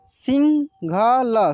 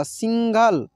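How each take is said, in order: First: सिंघल stretched very slowly as सिं-घ-ल; slow syllable by syllable. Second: Said in the usual way. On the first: Shown as a demonstration. Teacher sounds out the word slowly for students. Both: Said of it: "कैसे इसको पढ़ेंगे".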